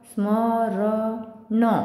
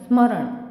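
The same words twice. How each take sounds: First: The final n is followed by a vowel. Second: The final n is bare, with no vowel. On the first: The speaker calls it wrong. "हलंत नसतं तर कसं उच्चारण झालं असतं" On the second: The speaker calls it right. "स्मरण असं होईल ते"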